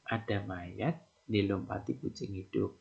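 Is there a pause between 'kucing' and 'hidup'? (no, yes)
no. Kucing hidup runs together without a pause. A living cat jumps over the corpse. "ada mayat itu dilompati kucing yang hidup"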